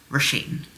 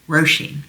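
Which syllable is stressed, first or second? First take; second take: second; first. First: The stress is on the second syllable. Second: The stress is on the first syllable. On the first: The speaker calls it wrong. "not Roisin" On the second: The speaker calls it right. "the stress is on the first syllable"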